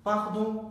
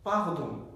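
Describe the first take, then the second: No difference in how they are said.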